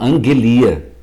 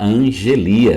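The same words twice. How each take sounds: First: The consonant after the n is a hard g sound. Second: The consonant after the n is a soft j sound. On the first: This is how Greek speakers say it. "O grego, ele não consegue falar o som do J. ... eles falam angelia" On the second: This is how Portuguese speakers say it. "Vocês podem falar angelia, não é um problema"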